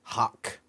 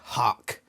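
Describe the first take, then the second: First: The word is said in an American accent. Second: The word is said in an American accent.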